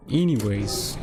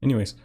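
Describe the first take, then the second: First: Stretched-out "Anyways" to move things along. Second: Said in the usual way. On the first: Real, not acted. Repeats word, stretching it playfully.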